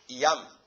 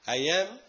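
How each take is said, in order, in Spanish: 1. La vocal de 'am' es una 'ah' abierta. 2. La vocal de 'am' es cercana a 'eh'. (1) "yo no voy a decir I am" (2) "am aquí no es una A, es una E"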